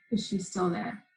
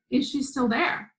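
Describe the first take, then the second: First: Softer, lowered question; a mother gathering herself, asking softly; quietly composed. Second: Mildly raised, rising question; lightly voiced mother checking on her child. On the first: Retold or imitated. Mother asks daughter after a deep breath, quietly composed. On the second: Mother asks daughter about the woman, questioning.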